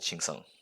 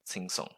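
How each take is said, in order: First: The syllable begins with a 'ch' sound. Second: The syllable begins with a 't' sound. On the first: This is how younger speakers say it today. "most younger people would pronounce it as ching song" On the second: This follows the traditional spelling, perhaps used by older speakers. "It's actually written as a gova ting ting song"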